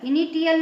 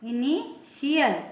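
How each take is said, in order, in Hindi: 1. बीच का व्यंजन 't' बोला जाता है। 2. बीच का व्यंजन 'sh' बोला जाता है। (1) "इनिटियल नहीं कहेंगे" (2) "इसको इनिशियल श पढ़ेंगे"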